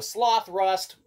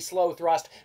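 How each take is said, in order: First: The name splits as sloth plus rust. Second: The name splits as slow plus thrust. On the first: "So sloth rust, we kind of like that" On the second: "but it's probably slow thrust"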